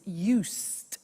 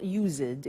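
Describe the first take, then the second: First: "used" said as YOOST; "used" in one beat, s sound instead of z; one-syllable "used". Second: "used" said as YOO-zid; "used" mispronounced with a voiced z and an -id ending; two-syllable "used". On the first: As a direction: say "used" with a drawn-out hissed s and final t. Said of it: "the pronunciation is not used, it's used". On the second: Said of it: "the pronunciation is not used". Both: Shown as a demonstration.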